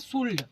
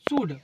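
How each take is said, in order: First: The word is said with an L sound. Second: The word is said with no L sound. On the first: The speaker calls it wrong. "कुछ बच्चे उसको इसको बोलते हैं क्या" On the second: The speaker calls it right. "यल silent हो जाता है"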